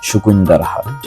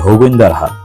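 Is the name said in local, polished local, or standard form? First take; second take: polished local; local. First: The name starts with s but has k. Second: The name starts with h in local dialect. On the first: This is how villagers say it when trying to speak properly. "যারা গ্রামে একটু শুদ্ধ করে বলতে চায় তারা বলে সুকুইন্দার হাট" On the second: This is how all the villagers say it. "তাদের আঞ্চলিক ভাষা ... তারা প্রত্যেকেই বলে থাকে হগুইন্দার হাট"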